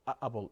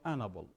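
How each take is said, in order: First: The article runs straight into apple, no n. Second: An n sound links the article to apple. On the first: The speaker calls it wrong. "We cannot say apple, apple. It is really difficult" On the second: The speaker calls it right. "we say no, annable. Very easy"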